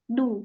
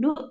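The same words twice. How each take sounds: First: The syllable is said without a glottal catch. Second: The syllable is said with a glottal catch. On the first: The speaker calls it right. "tapi du" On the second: The speaker calls it wrong. "idunya jangan di hamzah ya, bukan du"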